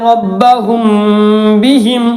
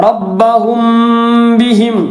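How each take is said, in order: Both takes have the same delivery.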